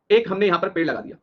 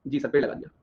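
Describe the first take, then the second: First: Said in the usual way. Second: Low, soft echo as the class; students' dutiful reply. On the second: Acted. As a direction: answer back quietly as an agreeing student. Echoes as the agreeing students. (छात्रों की तरह धीमी, नीची आवाज़ में हामी)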